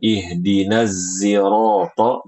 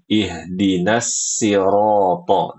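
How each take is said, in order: First: Sirata begins with a z sound. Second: Sirata begins with a plain s sound. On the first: "dengan huruf zai" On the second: "dengan sin"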